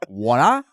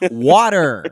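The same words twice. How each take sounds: First: The final R is dropped. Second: The final R is clearly pronounced. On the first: The speaker calls it wrong. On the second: The speaker calls it right. "You hear how we pronounce those R's"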